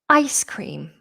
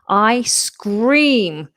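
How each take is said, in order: First: The s sound ends the first word. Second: The s sound starts the second word. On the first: The frozen dessert. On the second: Someone screams.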